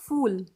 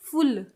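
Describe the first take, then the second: First: The word is said softly and gently. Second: The word is said short and forcefully. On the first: It is the polite Hindi way of speaking. "Polite वे में बोलते हैं" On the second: It is the Punjabi way of speaking. "थोड़ा जोर से बोलते हैं तो फुल"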